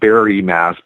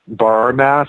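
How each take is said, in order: First: Barre is said as two syllables, like Barry. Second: Barre is said as one syllable, like bar. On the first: The speaker calls it right. "it's pronounced Barry Mass" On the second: The speaker calls it wrong. "what looks like bar bar mass"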